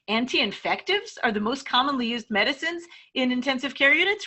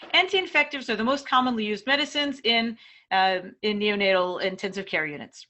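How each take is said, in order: First: It is said doubtfully, like a question. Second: It is said as a plain, neutral statement. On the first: It questions whether the claim is true. "if your study was actually maybe questioning whether they're the most commonly used" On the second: It is a simple fact. "if that's a simple fact, it's got a period at the end of it"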